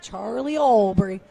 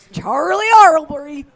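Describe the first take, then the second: First: Said in the usual way. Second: Slow, much higher and louder mock British accent; hammed-up British accent repeating a name. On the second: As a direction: announce the name in an over-the-top British accent. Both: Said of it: "Is that your British accent?".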